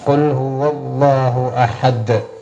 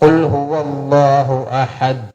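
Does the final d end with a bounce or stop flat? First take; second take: bounce; flat. First: The final d ends with an echoing bounce. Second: The final d stops flat with no echo. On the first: The speaker calls it right. "ദാൽ എന്ന ഉച്ചാരണം അവിടെ വരണം" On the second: The speaker calls it wrong. "അങ്ങനെയല്ല"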